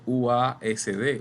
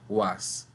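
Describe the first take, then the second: First: Each letter is named separately, one by one. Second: The letters are read together as one word. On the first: The speaker calls it wrong. "usted no dice U A S D" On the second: The speaker calls it right. "Eso suena como una palabra"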